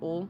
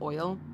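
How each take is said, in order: First: Oil is said with a plain vowel, southern-style. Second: Oil is said with a full gliding diphthong.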